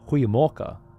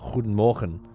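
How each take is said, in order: First: The first word is shortened to a goeie sound. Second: The first word is full, with a hard G. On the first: The speaker calls it right. "the pronunciation where I was living" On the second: The speaker calls it wrong. "with the hard G"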